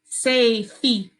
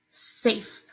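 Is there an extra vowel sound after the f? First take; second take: yes; no. First: An extra E vowel follows the f. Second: The word ends on the f sound. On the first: The speaker calls it wrong. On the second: The speaker calls it right.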